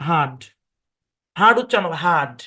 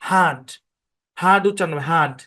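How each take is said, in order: Both takes have the same delivery.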